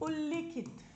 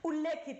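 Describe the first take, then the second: First: The vowel after the double l is 'i'. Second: The vowel after the double l is 'e'. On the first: The speaker calls it right. "शब्द क्या होता है साथियों?" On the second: The speaker calls it wrong. "बोलते भी उल्लेखित है लेकिन बोलते भी गलत है"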